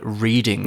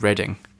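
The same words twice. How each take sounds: First: The name is said with a changed American pronunciation. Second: The name is said with the British pronunciation. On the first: This is how Americans might have renamed it. "I wonder if Americans have called it Reading" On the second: This is how the town is named in the UK. "or they have stayed with Reading"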